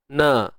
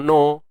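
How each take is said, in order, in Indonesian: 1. Nun diucapkan ringan, dengan vokal yang jelas. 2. Nun diucapkan berat, dengan vokal yang lebih gelap. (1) "pada nun itu kita kekalkan uh, barisnya" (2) "jangan bawa pengaruh tebal lam tu pada nun"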